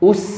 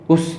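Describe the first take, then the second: First: The s is pulled back to a crisp tongue-tip hiss. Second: The s keeps the lip rounding of the vowel. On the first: The speaker calls it right. "tapi us" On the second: The speaker calls it wrong. "bukan us us"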